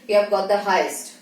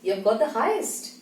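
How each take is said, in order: First: It is said in a strict tone. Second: It is said in a happy tone.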